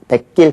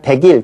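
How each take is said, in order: First: The second syllable starts with a tense consonant. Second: The second syllable starts with a plain consonant. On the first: The speaker calls it right. "백길 그렇게 발음을 합니다" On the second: The speaker calls it wrong. "우리가 백일 그렇게 발음 안 하죠"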